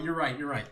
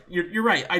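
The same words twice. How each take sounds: First: Said in the usual way. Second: "right" said much louder, conceding; loud, laughing concession. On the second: Real, not acted.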